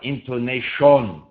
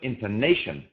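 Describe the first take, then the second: First: Every syllable has a full, clear vowel. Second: The unstressed syllables are reduced and weak. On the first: The speaker calls it wrong. "it's not intonation" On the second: The speaker calls it right. "It's just intonation"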